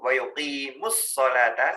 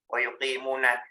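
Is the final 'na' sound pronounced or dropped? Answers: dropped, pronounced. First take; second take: dropped; pronounced. First: The 'na' is dropped and links into the next word. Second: The final syllable 'na' is pronounced fully. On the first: The speaker calls it right. "nunya hilang" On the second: The speaker calls it wrong. "Wa yuqimuna tadi bacanya ya"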